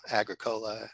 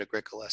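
First: Agricola as AG-ruh-KOH-luh; rejected pronunciation. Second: Agricola as uh-GRIK-uh-luh; preferred pronunciation. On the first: Librarian showing what they never said, Agricola as AG-ruh-KOH-luh. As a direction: open Agricola on a stressed AG and sound "cola" with a long O. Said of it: "they never said the w-, word". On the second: Librarian showing what they always called it, Agricola as uh-GRIK-uh-luh. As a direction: stress GRIK in Agricola, weak first and last syllables. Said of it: "They always called it". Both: Shown as a demonstration.

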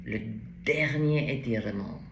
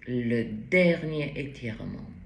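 No difference in how they are said.

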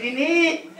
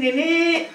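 First: Mocking echo. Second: Put-on teen's innit. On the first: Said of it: "I said". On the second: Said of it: "She says".

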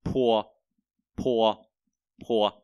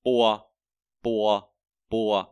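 First: "Pua" with a strong puff of air after the p; "Pua" as Mandarin p, breathy aspirated release; Chinese p, aspirated. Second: "pua" with an unaspirated p, pressed lips; "pua" said with a firm lip stop and no puff of air; "pua" as Mandarin b, unaspirated; Chinese b, heavy on the lips. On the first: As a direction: blow the p out in "Pua". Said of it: "chúng ta thổi cái chữ pua này ra". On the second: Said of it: "đọc nặng âm môi ra". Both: Shown as a demonstration.

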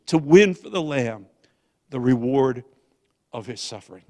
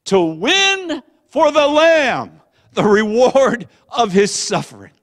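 First: Said in the usual way. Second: Loud, high, slow proclamation; rallying cry. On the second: Retold or imitated. Preacher reading son's text back as a rallying cry. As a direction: proclaim it like a battle cry, drawn out.

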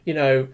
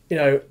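The two takes are said the same way.

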